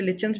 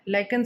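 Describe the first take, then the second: First: The middle sound is a soft 'ch'. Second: The middle sound is a hard 'k'. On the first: "जिसको कुछ बच्चे लिचन्स भी pronounce करते हैं" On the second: "लाइकन से बनाया जाता है"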